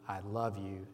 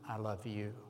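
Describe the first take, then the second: First: The word "love" carries the stress. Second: The word "you" carries the stress. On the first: "emphasizing each word" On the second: "emphasizing each word"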